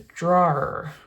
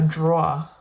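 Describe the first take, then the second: First: The word is said in a standard accent. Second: The word is said in a New York accent. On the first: The speaker calls it right. "It's a drawer" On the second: The speaker calls it wrong. "with the New York accent because I want to say drawer, but I know that's not how you say it"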